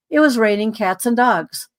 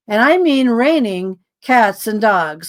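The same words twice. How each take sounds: First: Said in the usual way. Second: Drawn out, each word leaned on; slow it down to insist on the downpour; slow emphatic repeat. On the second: Shown as a demonstration. Telling the listener how hard it rained, slow and emphatic.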